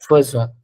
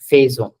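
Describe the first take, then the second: First: The first vowel is a short 'uh' sound. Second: The first vowel is an open 'eh' sound. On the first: The speaker calls it right. "It's an exception in pronunciation" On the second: The speaker calls it wrong. "It's not faisons. Don't say it as faisons"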